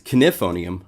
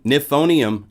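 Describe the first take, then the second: First: The word begins with a K sound. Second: The word begins with a plain N sound. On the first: The speaker calls it right. "actually it's Knifonium. I gotta say it right" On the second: The speaker calls it wrong. "I said it Nifonium for a long time"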